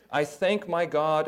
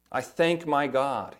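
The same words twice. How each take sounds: First: Slow, weighty "thank"; stress on thank. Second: Slow, weighted "thank" with a falling close; emphatic quote. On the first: Preacher savoring the verse for the congregation, stress on thank. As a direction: lean on "thank" slowly. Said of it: "notice all of the word all". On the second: Pastor repeating the verse to show emphasis, slow stress. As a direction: land on "thank" and let it fall. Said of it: "This is emphatic". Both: Shown as a demonstration.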